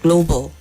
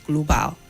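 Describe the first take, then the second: First: The final syllable has a weak, reduced vowel. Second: The final syllable has a full, strong vowel. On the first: The speaker calls it right. "The same thing with global" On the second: The speaker calls it wrong. "not global"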